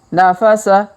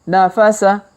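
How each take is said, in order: No difference in how they are said.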